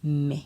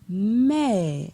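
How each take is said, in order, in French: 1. Il est prononcé sur un ton bas. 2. Il est prononcé sur un ton descendant. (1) "Avec un ton bas" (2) "Ton descendant"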